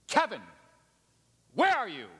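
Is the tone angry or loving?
angry. It is said in a harsh, accusing tone. The caller is condemning the one being sought. The speaker calls it wrong. "I saw some of you just flinch right there"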